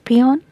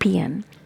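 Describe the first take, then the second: First: The second vowel sounds like 'o'. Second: The second vowel sounds like 'a'. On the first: The speaker calls it wrong. "it is not pronounced as peon" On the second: The speaker calls it right. "E and A sound we have here"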